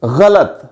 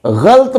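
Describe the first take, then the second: First: गलत as gha-lat; correct pronunciation. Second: गलत as a drawn-out ghalt; mispronunciation demo. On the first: Teacher giving the correction, गलत as gha-lat. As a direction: say गलत in two syllables, a after ल. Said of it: "इसका दुरुस्त तलफ़ुज़ है". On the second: Teacher warning against saying it so, गलत as ghalt. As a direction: say गलत slowly in one syllable, ghalt. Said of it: "इस तरह से". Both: Shown as a demonstration.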